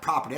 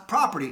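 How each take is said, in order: First: "property" said quickly in a local Baltimore accent. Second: Said in the usual way. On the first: Real, not acted. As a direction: slip "property" out in his own Baltimore accent, fast. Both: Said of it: "that's my Baltimore accent".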